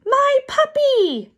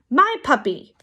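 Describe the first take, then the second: First: Very high, slow, loud wail; drawn-out high-pitched kid's scream; child's howl. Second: Higher, lightly screamed protest; understated childish yell; mild kid's scream. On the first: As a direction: howl it out like a frantic small child. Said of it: "Aki howled". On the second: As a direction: protest like a small child, not at full force. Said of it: "Aki screamed". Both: A narrator's reading.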